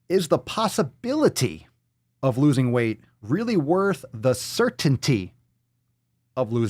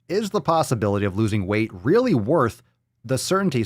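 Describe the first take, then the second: First: It is read slowly and deliberately. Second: It is read at a normal pace.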